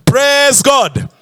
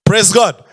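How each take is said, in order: First: Higher, insistent praise call; prompting the congregation, pitch raised; rallying call. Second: Said in the usual way. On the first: Real, not acted. Repeats it to draw congregation response.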